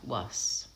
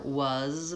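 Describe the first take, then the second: First: The word ends with a hissing s sound. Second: The word ends with a buzzing z sound. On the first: The speaker calls it wrong. "might sound more like was" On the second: The speaker calls it right. "Or was might sound more like"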